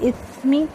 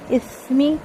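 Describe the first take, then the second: No difference in how they are said.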